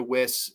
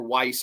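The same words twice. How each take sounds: First: "Wyss" with a short i, rhyming with miss; surname pronunciation. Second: "Weiss" with a long eye vowel, rhyming with ice; surname pronunciation. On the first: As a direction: say "Wyss" like "wiss". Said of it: "I don't know if it's Wyss or Weiss". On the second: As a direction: say "Weiss" like "wice". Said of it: "I always say Weiss". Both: Shown as a demonstration.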